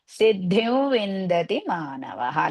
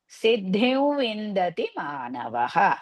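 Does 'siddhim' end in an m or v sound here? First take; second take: v sound; v sound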